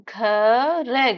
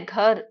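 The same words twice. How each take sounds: First: घर है drawn out as a long "gha", then "re"; sound by sound. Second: Said in the usual way. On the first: Shown as a demonstration. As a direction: sound out घर है slowly, letter by letter. Teacher breaks word into sounds.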